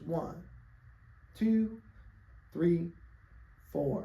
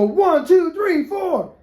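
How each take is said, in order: First: The counting is slow. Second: The counting is fast.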